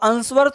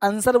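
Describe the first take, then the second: First: The w sound is pronounced after the s. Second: No w sound is pronounced after the s. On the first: The speaker calls it wrong. "अब आंसर तो नहीं कहते" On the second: The speaker calls it right. "आंसर बोलते हैं"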